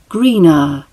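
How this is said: It ends with a schwa, British style. "the RP British accent, where the at the end turns into a schwa sound"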